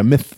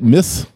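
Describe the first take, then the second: First: The word ends in a th sound. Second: The word ends in an s sound. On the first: The speaker calls it right. "Yeah, myth" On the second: The speaker calls it wrong. "either say it miss, like you missed something"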